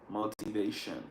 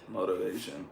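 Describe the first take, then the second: First: The middle T is said as a clear T. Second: The middle T is said like a soft D. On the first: The speaker is not American. "People that are not from America, or people that learn their accent, sometimes they say motivation" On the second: The speaker is American. "They would never pronounce this T as a T. It's more like a D"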